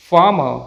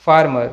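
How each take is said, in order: First: फार्मर as "faa-ma"; silent r. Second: फार्मर with an audible r before m; sounded r. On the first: Teacher models the correct word, r silent. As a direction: drop the r sounds in फार्मर. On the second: Teacher shows the mistake, r sounded. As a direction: pronounce the r in फार्मर. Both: Shown as a demonstration. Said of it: "ना कि".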